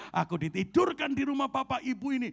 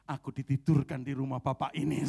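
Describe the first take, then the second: First: Higher, louder repeat of "ditidurkan"; loud declaration. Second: Loud declaration. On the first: Pastor answering the dinner-table question, loud and proud. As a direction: announce it boldly to the whole table. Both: Retold or imitated. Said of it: "Dengan lantang saya bilang".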